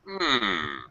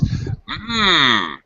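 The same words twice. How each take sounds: First: It sounds doubtful, as if unconvinced. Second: It sounds pleased, as if tasting something good. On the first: The listener doubts what was said. "showing doubt, expressing doubt" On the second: Something tastes or smells delicious. "We use completely different intonation if something's delicious"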